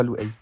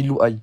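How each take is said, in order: First: Louay said as loo-eh, ending in -ɛ; Louay with a flattened e ending; wrong name pronunciation. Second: Louay said as loo-eye, ending in -aj; Louay with a clear open a then y glide; correct name pronunciation. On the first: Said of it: "pas Louay". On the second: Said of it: "Dis Louay". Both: Shown as a demonstration.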